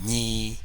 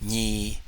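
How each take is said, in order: First: The syllable is drawn out with a long tone. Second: The same.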